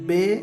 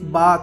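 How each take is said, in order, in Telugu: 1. అక్షరం పేరు దీర్ఘ 'e' అచ్చుతో ముగుస్తుంది. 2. అక్షరం పేరు దీర్ఘ 'a' అచ్చుతో ముగుస్తుంది. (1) "ఉర్దూలో ఒకవేళ ఇవే అక్షరాలు చదవాలంటే"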